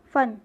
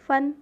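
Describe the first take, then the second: First: फन said with an f sound, meaning skill; फ़न with nukta. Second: फन said with a plain ph sound, as in the snake's hood; फन without nukta. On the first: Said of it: "और ये हो गया फन, मतलब हुनर और कला". (फन नुक्ते के साथ, 'फ़' की आवाज़ में) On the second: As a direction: say फन with an aspirated ph. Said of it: "फा के नीचे देखिए यहाँ पे बिंदी नहीं है, तो ये सांप का फन". (फन बिना नुक्ते के, 'फ' की आवाज़ में) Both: Shown as a demonstration.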